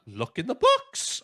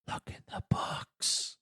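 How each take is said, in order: First: High-pitched mock realisation; kid's incredulous echo. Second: Slow, hushed whisper; whispering old man. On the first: Boy repeating the old man's advice, high mock realisation. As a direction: echo it back high, as a dawning idea. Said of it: "And he's like". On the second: Retold or imitated. Old man advising the boy inside the dragon, slow whisper. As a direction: whisper it like a distant old man's voice. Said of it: "the old man going".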